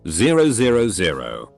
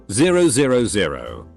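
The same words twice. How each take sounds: The two takes are said the same way.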